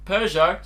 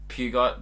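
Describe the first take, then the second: First: The final T is not pronounced. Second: The final T is pronounced clearly. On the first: "silent T" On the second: "I read the word pew and then the word got"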